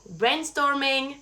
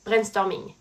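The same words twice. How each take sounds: First: Slow, English-accented "Brainstorming"; drawn-out English accent on the word. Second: "brainstorming" frenchified, with a French R; English loanword in French pronunciation; French accent. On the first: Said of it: "C'est le même mot". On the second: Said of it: "mais avec un accent français". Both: Shown as a demonstration.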